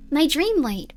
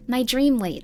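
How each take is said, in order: First: A lifted, falling lilt on the words; lightly voiced young girl. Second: Said in the usual way. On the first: Girl confiding in her diary, lightly girlish read. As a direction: read it as a proud little girl.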